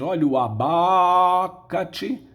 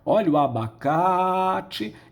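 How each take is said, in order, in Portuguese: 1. A tonicidade cai em uma sílaba diferente de 'ca'. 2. A tonicidade e o alongamento recaem sobre 'ca'. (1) "Ninguém vai dizer" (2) "Nós vamos esticar a vogal da sílaba tônica"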